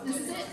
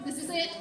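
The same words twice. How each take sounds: The two takes are said the same way.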